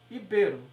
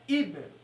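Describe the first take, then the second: First: The stress is on the second syllable. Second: The stress is on the first syllable. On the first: The speaker calls it right. "e sim essa daqui" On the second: The speaker calls it wrong. "Essa palavra aqui não é íbero"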